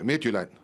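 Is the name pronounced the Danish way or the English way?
Danish. The name is said with Danish pronunciation.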